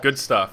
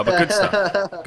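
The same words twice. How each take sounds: First: Said in the usual way. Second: Slow, high, loud drawn-out good stuff; mock dramatic. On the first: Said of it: "Uh, but good stuff". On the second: Shown as a demonstration. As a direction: ham up the words good stuff.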